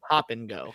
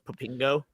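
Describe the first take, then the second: First: The name is said as three separate words. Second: The name is run together as one word. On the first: This is the name as intended. The speaker calls it right. "no, it was Pop and Go" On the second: The name was misread from the sign. The speaker calls it wrong. "so that was Popingo"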